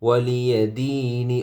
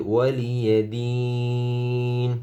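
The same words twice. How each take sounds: First: "ওয়ালিয়া দিনি" slowly, final i sounded; joined-reading ending. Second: "ওয়ালিয়া দিন" chanted long, closing on n; waqf stop. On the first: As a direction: end "ওয়ালিয়া দিনি" on an open i. ("ওয়ালিয়া দিনি" শেষে জের উচ্চারণ করে) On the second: ("ওয়ালিয়া দিন" টেনে নুনে ওকফ) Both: Shown as a demonstration. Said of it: "ওকফ করলে".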